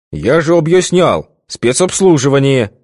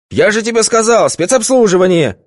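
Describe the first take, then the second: First: Loud nasty repeat. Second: High, loud scolding; irritated yell. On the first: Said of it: "громко и противно повторил Витька". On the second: Boss scolding Vitka about the private party, irritated yell. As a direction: scold the underling sharply. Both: A narrator's reading.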